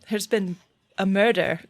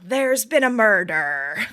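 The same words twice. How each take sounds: First: It is said in her normal voice. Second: It is said in a pirate accent.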